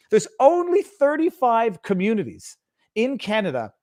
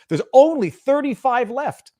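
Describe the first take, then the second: First: "only" lifted higher in a mock quote; mock-repeat, "only" stressed; sarcastic stress on only. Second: ONLY drawn out high, loud and slow, scoffing; sarcastic repeat with a punched, stretched "only"; mocking stress on only. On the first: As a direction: quote the claim with a scornful push on "only". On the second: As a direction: lean hard and slow on "only" to mock the claim. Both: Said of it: "only is not the word I would be using".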